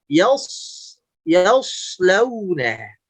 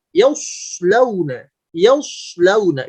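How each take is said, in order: First: Very slow "yaslauna", thick "yas" without pouting; thick, unpouted reading. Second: Slow "yaslauna" with over-rounded "yaus"; over-pouted reading. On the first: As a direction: draw out "yaslauna" with backed a, lips relaxed. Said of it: "Yang tepat insya Allah". ("yaslauna" pelan, tebal tanpa monyong) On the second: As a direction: push the lips forward on the start of "yaslauna". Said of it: "ketika berlebihan monyong ke depan". ("yaslauna" dengan bibir terlalu monyong) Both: Shown as a demonstration.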